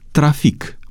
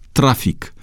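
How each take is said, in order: First: The stress is not on the second-to-last syllable. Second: The stress is on the second-to-last syllable. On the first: "Așa se pronunță aceste cuvinte după etimonul francez" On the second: "după obișnuința românului de a accentua cuvintele pe penultima silabă"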